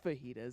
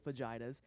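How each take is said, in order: First: The word has its usual standard pronunciation. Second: The word has a playfully altered pronunciation. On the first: "It's fajitas" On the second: "but I say fajitas"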